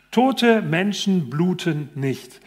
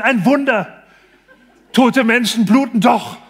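First: Slow, deliberate textbook reading; reading aloud slowly. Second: Loud, high, laughing exclamation of wonder; delighted cry. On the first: Doctor reads the textbook line slowly to the patient. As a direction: spell it out word by word for him. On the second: Patient cries out to the doctor, thrilled and laughing. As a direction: shout it like a miracle just happened. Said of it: "Der Mann ruft ganz begeistert". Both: Retold or imitated.

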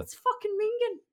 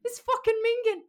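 First: High, loud Irish-accented Mingen. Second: High, loud Irish-accented repeat; Irish accent again. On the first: Reading Irish slang to cohosts, high loud Irish accent. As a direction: say "It's fucking Mingen" in a broad Irish lilt, pitched up. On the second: Asked to repeat the slang, high loud Irish accent. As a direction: repeat "It's fucking Mingen" with a broad Irish lilt, pitched up and louder. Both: Shown as a demonstration. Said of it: "Say it again, say it again".

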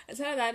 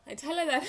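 First: Said in the usual way. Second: Laughing. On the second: Real, not acted. Laughs while retelling coffee mix-up.

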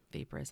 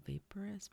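First: "vaporous." said firmly with a falling end; settled pronunciation. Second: "vaporous?" tried out with a questioning rise; unsure pronunciation. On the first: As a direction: commit to "vaporous." as VAY-puh-rus. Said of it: "I'm gonna go with that". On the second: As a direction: test the word "vaporous?" hesitantly, rising at the end. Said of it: "Vap-, yeah". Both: Shown as a demonstration.

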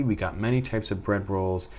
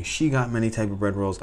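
First: Said in the usual way. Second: Self-correction with "she" stressed; "she" stands out, the rest follows lightly. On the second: Real, not acted. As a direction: lean on "she" to correct who did it. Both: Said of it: "or should I say".

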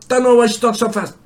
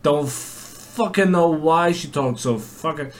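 First: High, loud, rapid-fire mimicry; imitating fast talker. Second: Said in the usual way. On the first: Classmate imitated talking too fast, high rapid gabble. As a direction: race through it like a girl in a rush. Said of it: "she's even fucking quicker than that".

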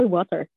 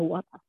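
First: Water with the r sounded, wotter; her own way. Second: Water with a dropped r, wota; British way. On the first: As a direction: say water ending in a clear r. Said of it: "sa kanya water". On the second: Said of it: "You're like, alam mo". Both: Retold or imitated.

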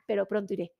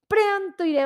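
First: Said in the usual way. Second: "Pronto" lifted high and firm, falling on "iré"; "Pronto iré" said as a determined vow; emphatic promise. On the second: Real, not acted.

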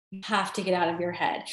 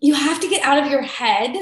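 First: The same line, much softer and lower; softer repeat. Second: Said in the usual way. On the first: Shown as a demonstration. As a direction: let the repeat drop away into a quiet echo.

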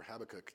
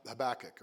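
First: Habakkuk said as HAB-uh-kuk, stress on the first syllable, softer; Habakkuk as HAB-uh-kuk, the alternative pronunciation; other way to say Habakkuk. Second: Habakkuk said as huh-BACK-uk, stress on the second syllable; Habakkuk as huh-BACK-uk, the first of two accepted pronunciations; one way to say Habakkuk. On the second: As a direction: say Habakkuk with the weight on BAK. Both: Shown as a demonstration. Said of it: "depending on your persuasion".

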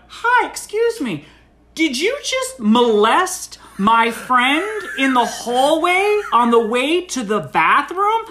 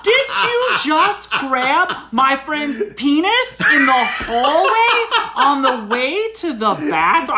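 First: High, loud, slow mock accusation; public confrontation. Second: High, slow, booming mock accusation; getting louder. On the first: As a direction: spell the accusation out for the whole room. Publicly confronts woman at party. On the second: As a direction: repeat the accusation louder, word by word. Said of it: "I'm getting a little louder here".

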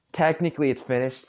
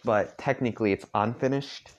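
First: Technically pushed higher and louder; stress on technically. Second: Technically rising into unfinished; unfinished set against finished; stress on unfinished. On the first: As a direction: lean on technically, then finished. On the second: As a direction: tilt toward unfinished with a rise. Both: Shown as a demonstration.

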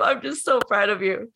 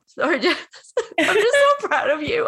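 First: Said in the usual way. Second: High, laughing through tears of pride; laugh-cry it, high and bursting; real laughter breaking up the words. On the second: Real, not acted.

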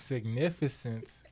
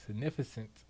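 First: "significance" said slowly, every syllable clear, ending in a crisp s; careful correction. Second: "significance" ending slurred to sound like "significant"; stumbled mispronunciation. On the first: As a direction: slowly spell out "significance" to fix the slip. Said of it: "I still feel like I fucked that up". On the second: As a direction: say "significance" with the final s dropped, ending on t. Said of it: "oh shit". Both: Real, not acted.

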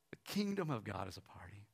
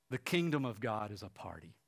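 First: Low, whispery reverence; hushed repeat. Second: Said in the usual way. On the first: Real, not acted. Preacher repeats the book title to congregation, hushed. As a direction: let it sink in, almost whispered.

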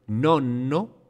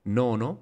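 First: Nonno with a long held middle N; double N. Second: Nono with a short middle N, rising; single N. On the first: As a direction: lean and linger on the N of nonno. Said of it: "con doble consonante". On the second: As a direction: keep the N light in Nono. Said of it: "con una N". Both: Shown as a demonstration.

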